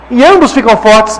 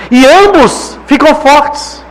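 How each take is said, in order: First: Said in the usual way. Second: Ambos stretched slowly and leaned on; slow weighty "E ambos ficam fortes"; slow emphatic. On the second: Shown as a demonstration. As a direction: land "ambos" slowly, a little higher.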